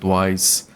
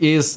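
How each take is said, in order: First: The name sounds like the word 'wise'. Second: The name does not sound like 'wise'. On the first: This is how English speakers say it. "it didn't even occur to me to call it wise" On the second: This is how a Brazilian speaker says it. "I pronounce it is just because, you know, Brazilian"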